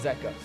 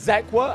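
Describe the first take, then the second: First: No 'w' sound follows the 'k'. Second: A 'w' sound follows the 'k'. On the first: This is a version heard from someone else. "then I heard Zeka, and I thought, that sounds cooler" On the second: This is the speaker's usual way of saying it. "I've always said Zekwa"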